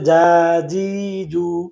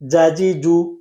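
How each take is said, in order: First: The vowels are drawn out long. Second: The vowels are short and quick. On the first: The speaker calls it wrong. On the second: The speaker calls it right.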